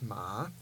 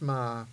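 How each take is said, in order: First: The pitch rises from low to high. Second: The pitch stays low. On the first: "the rising tone, is ma" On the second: "the low tone is ma"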